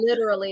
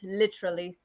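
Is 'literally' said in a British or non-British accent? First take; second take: non-British; British. First: It is said in a non-British accent. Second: It is said in a British accent. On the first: "not literally" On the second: "it's literally"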